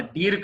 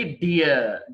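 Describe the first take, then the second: First: డీర్ as one long "deer" with r; wrong pronunciation. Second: డియర్ gliding to "uh", no r; correct pronunciation. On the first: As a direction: say డీర్ with a sounded final r. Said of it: "కాదండి అది". (డీర్ చివర "ర్" పలికి తప్పుగా) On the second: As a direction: say డియర్ as "DEE-uh". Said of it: "డీర్ కాదండి". (డియర్ "డియ" అని) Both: Shown as a demonstration.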